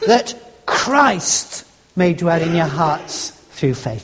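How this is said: The word Christ carries the stress. It is nothing else but this one person. "In other words, nothing else but Christ"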